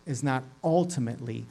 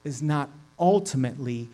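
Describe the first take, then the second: No difference in how they are said.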